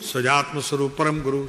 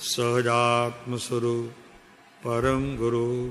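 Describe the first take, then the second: First: The phrase is said very quickly. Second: The phrase is said very slowly. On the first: It is recited as a continuous devotional refrain. "બોલે એટલું ઝડપથી" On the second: It is recited as a mantra with closed eyes. "એકદમ એ પણ slow થઈ જાય પાછો"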